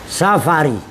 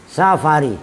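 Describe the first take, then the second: Both takes have the same delivery.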